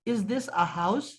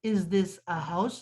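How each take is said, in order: First: Said in the usual way. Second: Is this a house? drawn out very slowly, word by word. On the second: Shown as a demonstration. Teacher repeating the English question for pupils, very slow. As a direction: stretch Is this a house? out so every word stands alone. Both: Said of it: "تو is کے لیے ہم نے آ لگا دیا".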